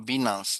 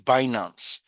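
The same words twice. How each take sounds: First: It does not sound like finance with B. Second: It sounds like finance with B. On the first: The speaker calls it wrong. "some Nigerians will say Binance or Binance. It's not correct" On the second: The speaker calls it right. "It's Binance. Because if you take the B and put F here, it's finance"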